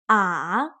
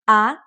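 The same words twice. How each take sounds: First: The pitch falls low and then rises. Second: The pitch rises from middle to high. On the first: "The third tone, it goes down and then up again" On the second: "The second tone, it goes up like up"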